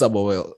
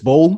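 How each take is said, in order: First: The word is said in its full form. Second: The word is said in a short, clipped form. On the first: The speaker calls it right. "but it's sabawel" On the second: The speaker calls it wrong. "Some people say bowl"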